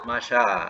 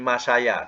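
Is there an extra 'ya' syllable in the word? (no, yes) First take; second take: no; yes. First: The word has two syllables, without a ya sound. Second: The word has three syllables, with a ya sound. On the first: The speaker calls it right. "bunyi maksurah, masya" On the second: The speaker calls it wrong. "tak ada bunyi masaya, tak ada"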